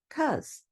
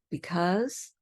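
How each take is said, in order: First: The first syllable is dropped entirely. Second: The word is said with both syllables.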